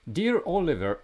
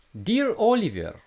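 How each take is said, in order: First: High-pitched Russian babushka voice; Russian accent. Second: Put-on high, loud Russian babushka accent; squeaky old Russian lady voice. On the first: Retold or imitated. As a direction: read it like a Russian grandma. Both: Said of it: "I will read it for you in a Russian accent".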